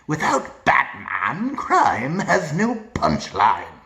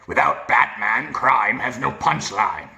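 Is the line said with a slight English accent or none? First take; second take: English accent; none. First: A deep voice with a slight English accent. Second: A deep gravelly voice with no English accent. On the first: The speaker calls it right. "you want to add a little bit of an accent" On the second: The speaker calls it wrong. "read normally as the deep gravelly voice"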